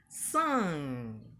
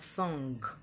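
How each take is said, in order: First: The ng is a nasal with no g sound. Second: The ng is followed by a g sound. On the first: The speaker calls it right. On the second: The speaker calls it wrong.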